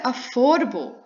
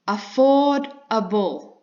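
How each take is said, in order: First: Said in the usual way. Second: "affordable" slowly broken up as afford-a-ble; spaced, emphatic beats through "affordable"; syllable by syllable. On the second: Shown as a demonstration. Teacher breaking the word down, "affordable" said slowly in separate parts. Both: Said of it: "You've got two syllables".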